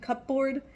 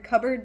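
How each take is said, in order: First: The word is said fully, as it is spelled. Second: The word is said in a reduced everyday way. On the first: "but it's written cupboard" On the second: "I would pronounce that word cupboard"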